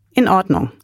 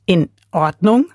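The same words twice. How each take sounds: First: Said in the usual way. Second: "In Ordnung?" as a disbelieving question rising on "Ordnung"; incredulous echo. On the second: A narrator's reading. Lotte in the crate echoing grandfather in disbelief, rising "In Ordnung?". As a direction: echo "In Ordnung?" in shock, pitch lifting on "Ordnung".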